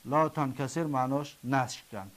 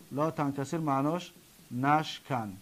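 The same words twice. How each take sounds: The two takes are said the same way.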